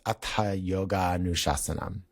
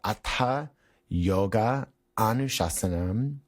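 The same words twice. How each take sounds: First: The final and initial a sounds merge into one. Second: Yoga and anushasanam are said as separate words. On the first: "when pronounced as a verse" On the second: "The words are"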